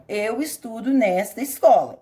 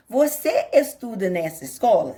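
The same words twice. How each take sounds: First: "Eu estudo nesta escola" said as a firm statement, falling at the end; statement tune. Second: "Você estuda nessa escola?" asked with the pitch lifting on "escola"; question tune. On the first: Teacher showing parents a statement, falling tune. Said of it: "estou afirmando". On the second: Teacher showing parents a question, rising tune. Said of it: "está perguntando". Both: Shown as a demonstration.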